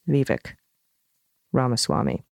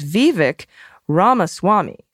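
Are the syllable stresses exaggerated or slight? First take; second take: slight; exaggerated. First: The syllable stresses are only slightly stretched. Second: The syllable stresses are strongly exaggerated and stretched. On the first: "they really should just be the slightest stretches" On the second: "I've exaggerated the stresses"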